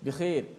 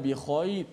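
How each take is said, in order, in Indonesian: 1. Bunyi kh diucapkan ringan dan tipis. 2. Bunyi kh diucapkan berat dan tebal. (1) "bahasa percakapan dia" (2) "Kita ikut bahasa cakap Al-Quran"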